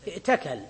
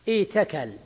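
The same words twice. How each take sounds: First: ائتكل as i'takal, glottal stop before t; hamza kept. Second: ايتكل as iitakal, long ii, no glottal stop; hamza turned ya. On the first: Teacher gives the form before substitution, ائتكل with audible hamza. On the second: Teacher applies the substitution rule, ايتكل with long ii. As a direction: glide through a long i in ايتكل to a single ta. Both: Shown as a demonstration. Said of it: "تبدل الهمزة ياء".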